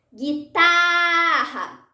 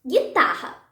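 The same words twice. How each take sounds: First: Guitarra with a very long, held TA; very slow, drawn-out stress on the ta of Guitarra; called-out stressed syllable. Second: Said in the usual way. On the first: Shown as a demonstration. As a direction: call out Guitarra, stretching the middle syllable. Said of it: "Tá é a sílaba tônica". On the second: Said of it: "Vamos tentar com outras palavras".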